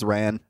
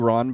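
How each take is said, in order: First: The name is said in a Boston accent. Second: The name is said in a standard accent. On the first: "but in a Boston accent" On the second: "It's really Ron"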